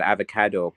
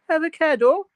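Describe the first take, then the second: First: Said in the usual way. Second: Put-on very high, questioning Limerick accent. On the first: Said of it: "but it's in a Limerick". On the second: Imitating the Salt Bae meme, high Limerick accent. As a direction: pitch it right up, Limerick style. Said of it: "it's in a Limerick av-, accent".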